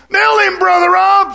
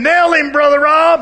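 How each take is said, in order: First: High, louder, slow shout urging a fight; the tempter shouting at the preacher to hit the man; shouted egging on. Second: Higher, louder egging him on; the devil urging a fight, a bit louder; a voice in his head urging him to hit the man. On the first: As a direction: yell it like the devil at your shoulder. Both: Retold or imitated. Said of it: "a guy living over here".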